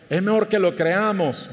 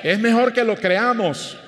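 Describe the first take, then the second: First: Said in the usual way. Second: Preacher driving 'mejor' home; emphatic declaration. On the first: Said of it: "¿ve?". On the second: Real, not acted. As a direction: proclaim it, leaning on 'mejor'. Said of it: "¿Puede decir amén a eso?".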